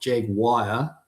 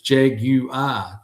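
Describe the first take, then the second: First: The word ends sounding like 'wire'. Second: The word ends sounding like 'yoo-er'. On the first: The speaker calls it wrong. "J A G, but and then W I R E. It's like it's not Jaguar" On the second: The speaker calls it right. "it's Jaguar"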